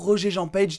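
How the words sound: The name is said with an English accent.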